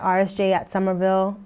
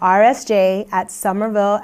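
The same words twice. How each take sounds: First: It is said at a normal speaking pace. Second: It is said slowly and deliberately.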